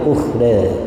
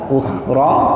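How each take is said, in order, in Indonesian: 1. Vokal akhir berada di antara a dan e. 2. Vokal akhir adalah a terbuka yang biasa. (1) "ada yang taklil" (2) "fathah biasa"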